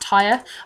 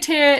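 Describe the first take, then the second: First: The name sounds like the word tire. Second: The name has a vowel like ear. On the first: The speaker calls it wrong. "It sounds like a car tire" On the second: The speaker calls it right. "Can we say Tyr? Is that better?"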